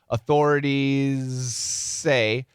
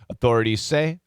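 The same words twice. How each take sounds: First: A faint Z blends into a strong S. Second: The Z nearly vanishes into the S. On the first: "a little bit of Z, a lot more S" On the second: "the focus can go here"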